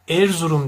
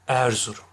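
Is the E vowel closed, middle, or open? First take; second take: closed; middle. First: The E vowel is strongly closed. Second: The E vowel is between open and closed. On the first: The speaker calls it wrong. "Erzurum dersem kapalı telaffuz etmiş olurum" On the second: The speaker calls it right. "Orta E olacak"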